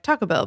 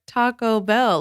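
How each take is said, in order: First: It is run together quickly as one word. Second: It is drawn out slowly as separate words.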